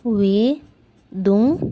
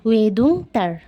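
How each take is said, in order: First: ওয়েদুং stretched out slowly, each syllable clear; slow Korean demo. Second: Said in the usual way. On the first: Shown as a demonstration. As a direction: spell out ওয়েদুং slowly for learners. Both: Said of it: "তাহলে সে বলবে".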